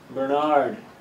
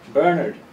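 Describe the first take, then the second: First: The stress is on the second syllable. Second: The stress is on the first syllable.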